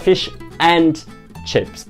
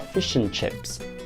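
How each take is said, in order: First: The word 'and' is said fully and strongly. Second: The word 'and' is said weakly and reduced. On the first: The speaker calls it wrong. "A gente não fala fish and chips" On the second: The speaker calls it right. "a gente fala fish and chips"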